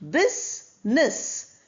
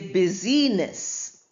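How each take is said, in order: First: The word has two syllables, no middle vowel. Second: The word has three syllables with middle vowel. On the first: The speaker calls it right. "where I is silent" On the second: The speaker calls it wrong. "We don't say busyness"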